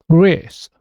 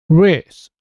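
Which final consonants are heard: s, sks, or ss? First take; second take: s; s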